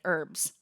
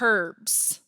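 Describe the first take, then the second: First: The word starts without an h sound. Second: The word starts with an h sound. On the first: This is the American way of saying it. "We don't say the H" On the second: This is the British way of saying it. "if you're listening in the U K"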